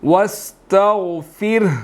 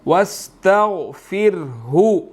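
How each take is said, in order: First: The word ends without the 'hu' syllable. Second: The word ends with a final 'hu' syllable. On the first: The reader stops at this word. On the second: The reading continues without stopping.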